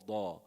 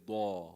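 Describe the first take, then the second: The two takes are said the same way.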